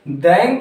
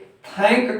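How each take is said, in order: First: The word begins with a d-like sound. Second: The word begins with a t-like sound. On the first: The speaker calls it wrong. "दैंक न करके" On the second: The speaker calls it right. "थैंक करते हैं"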